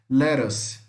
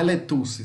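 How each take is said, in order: First: The middle T is a quick R-like flap. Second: The middle T is a clear T sound. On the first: The speaker calls it right. "Os dois T aqui nós vamos falar como se fosse um R, muito rápido" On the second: The speaker calls it wrong. "Se você falar letuce, está errado"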